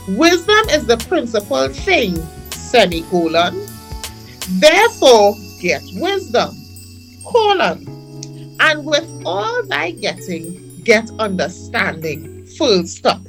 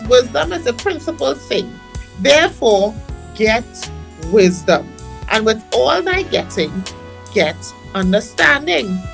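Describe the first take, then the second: First: It is read slowly, phrase by phrase. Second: It is read at a normal speed.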